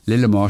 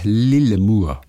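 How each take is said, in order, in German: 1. Der letzte Vokal klingt wie ein o. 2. Der letzte Vokal klingt wie ein u.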